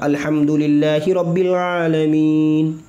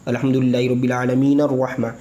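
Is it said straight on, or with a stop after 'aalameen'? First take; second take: stop; straight on. First: It stops and pauses after 'aalameen'. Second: It runs on past 'aalameen' without stopping.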